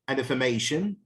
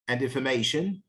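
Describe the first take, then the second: Both takes have the same delivery.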